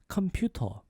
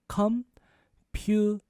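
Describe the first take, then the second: First: The word is said a little faster. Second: The word is said slowly and carefully.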